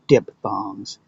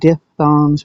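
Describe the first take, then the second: First: The word is pronounced the common everyday way. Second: The word is pronounced following its spelling. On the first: "most people pronounce it diphthongs" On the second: "it's spelled like diphthongs"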